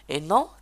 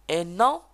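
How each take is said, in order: No difference in how they are said.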